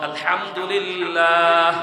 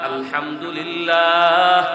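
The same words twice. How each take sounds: No difference in how they are said.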